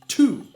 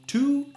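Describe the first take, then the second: First: The starting T sound is strongly exaggerated. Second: The starting T sound is plain and light. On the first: "let's exaggerate the beginning T like this" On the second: "say the syllable to. Say it with me three times"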